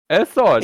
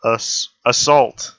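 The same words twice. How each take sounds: First: Assault said as "assod" with German accent; German pronunciation. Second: Assault drawn out slowly; slow careful pronunciation. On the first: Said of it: "It's pronounced like that". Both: Shown as a demonstration.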